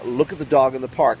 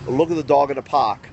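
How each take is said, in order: First: It is said without a New York accent. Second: It is said in a thick New York accent.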